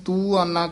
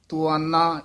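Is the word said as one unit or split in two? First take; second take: split; one unit. First: The word is split, with a long first vowel. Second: The word is said as one joined unit. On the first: The speaker calls it wrong. "ਦਲੈਂਕੜ ਲਾ ਕੇ ਫਿਰ ਵੱਖਰਾ ਪਾਠ ਕਰ ਦਿੰਦੇ ਹਨ" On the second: The speaker calls it right. "ਇਹ ਤੁਆਨਾ ਇਕੱਠਾ ਹੀ ਪਾਠ ਬੋਲਣਾ"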